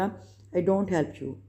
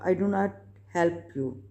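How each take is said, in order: First: Do not is shortened to one word, don't. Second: Do not is said as two full words.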